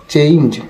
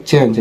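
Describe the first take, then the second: First: "চেঞ্জ" with e gliding into i, cheinj; correct "চেঞ্জ". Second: "চেঞ্জ" with a short pure e; old "চেঞ্জ" pronunciation. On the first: Teacher correcting viewers, "চেঞ্জ" as cheinj. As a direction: stretch "চেঞ্জ" through an ei diphthong. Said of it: "এটা হবে চেঞ্জ". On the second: Teacher quoting the old habit, "চেঞ্জ" with simple e. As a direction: say "চেঞ্জ" as chenj, no glide. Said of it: "আমরা বলতাম এটা চেঞ্জ". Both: Shown as a demonstration.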